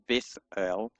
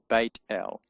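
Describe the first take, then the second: First: The first part ends with a th sound. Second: The first part ends with a t sound. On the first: The speaker calls it wrong. "it's not a th, it's not Beth El" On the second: The speaker calls it right. "it's Beit El"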